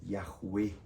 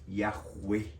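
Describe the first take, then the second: The two takes are said the same way.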